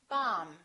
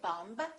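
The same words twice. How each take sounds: First: The final B is silent. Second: The final B is pronounced. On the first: The speaker calls it right. "we say; the B is silent" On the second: The speaker calls it wrong. "We don't say"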